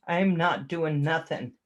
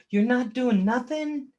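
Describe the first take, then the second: First: Said in the usual way. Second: Rising surprised question "You're not doing nothing?"; incredulous echo. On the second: Real, not acted.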